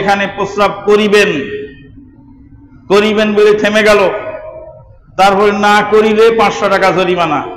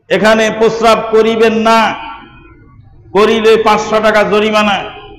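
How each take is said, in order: First: The pause comes before 'না'. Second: The pause comes after 'না'.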